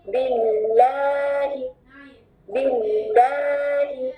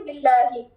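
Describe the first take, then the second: First: बिल्लाहि slow, holding the doubled ल्ल; doubled lam. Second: बिल्लाहि with no stress on the doubled lam; quick, light बिल्लाहि; old wrong way. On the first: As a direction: lean on the shadda in बिल्लाहि. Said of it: "गौर से सुने". (बिल्लाहि शद के साथ, ठहरकर) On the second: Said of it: "ये हम पहले कैसे पढ़ते थे". (बिल्लाहि बिना शद के) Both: Shown as a demonstration.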